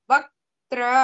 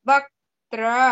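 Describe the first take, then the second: No difference in how they are said.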